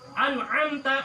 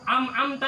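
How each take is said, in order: First: A glottal catch separates 'an' from 'amta'. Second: The n turns to m with no glottal catch. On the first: The speaker calls it right. "Yang benar hamzah am" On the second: The speaker calls it wrong. "jangan am-amta"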